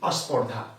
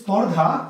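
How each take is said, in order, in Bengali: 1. 'sp'-এর আগে 'a' যোগ হয়। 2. শব্দটি 'sp' দিয়ে শুরু হয়। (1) "উচ্চারণ করতে গিয়ে তারা বলছে কি আস্পর্ধা" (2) "শব্দটি স্পর্ধা"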